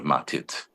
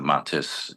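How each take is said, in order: First: The word ends with a t sound. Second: The word ends with an s sound. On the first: "instead of matit"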